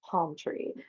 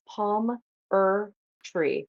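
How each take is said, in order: First: The name is said in two syllables. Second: The name is said in three syllables. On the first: The speaker calls it wrong. "not palm tree" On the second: The speaker calls it right. "my last name is Palm Er Tree"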